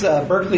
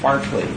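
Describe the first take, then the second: First: The first syllable sounds like 'burk'. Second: The first syllable sounds like 'bark'. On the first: This is the American name of the university and town. "Berkeley is the Americanized pronunciation" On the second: This is the name of the philosopher. "the first syllable is like bark like a dog"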